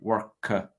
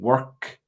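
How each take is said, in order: First: An extra uh sound follows the k. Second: The word ends cleanly on the k sound. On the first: The speaker calls it wrong. "you add an extra uh" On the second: The speaker calls it right. "instead of saying work"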